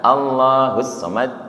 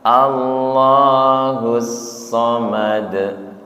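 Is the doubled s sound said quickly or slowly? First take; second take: quickly; slowly. First: The doubled s sound is said quickly. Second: The doubled s sound is said slowly. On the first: The speaker calls it wrong. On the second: The speaker calls it right. "ketika tasdid pelan-pelan nggih"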